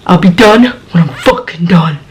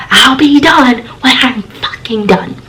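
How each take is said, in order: First: Roommate's snapped reply at usual volume; understated imitation of an angry shout; retold angry shout. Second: High, slow, drawn-out imitation of a yell; mock shout. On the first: Roommate answers through bathroom door, understated mock shout. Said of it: "that's what she shouts out". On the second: Roommate shouts from the shower, high mock yell. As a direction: imitate an irate roommate, stretching the words without real volume. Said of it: "She shouts out".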